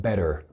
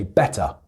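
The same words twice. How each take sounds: First: "better" as "bedder", final R sounded; American D-like T. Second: "better" with a crisp T and no final R; British T, silent R. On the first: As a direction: say "better" the American way, soft D and full R. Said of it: "the T becomes like a D sound". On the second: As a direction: say "better" as "bet-tuh". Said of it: "I pronounce the T". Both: Shown as a demonstration.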